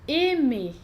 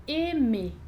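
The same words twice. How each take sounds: Both takes have the same delivery.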